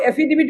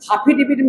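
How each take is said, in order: First: It begins with a vowel: affidavit. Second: It begins with an h sound: haafi dibit. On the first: The speaker calls it right. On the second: The speaker calls it wrong.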